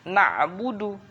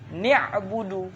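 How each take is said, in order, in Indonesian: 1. Vokal pertamanya a. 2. Vokal pertamanya i. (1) "Bukan na'budu" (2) "Dikasrahkan nuninya"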